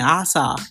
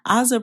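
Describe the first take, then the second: First: The name is said with an S sound. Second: The name is said with a Z sound. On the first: Someone else keeps saying it this way. The speaker calls it wrong. "she keeps saying Asa" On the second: This is how she says her own name. The speaker calls it right. "Ozza pronounces the Z in her name"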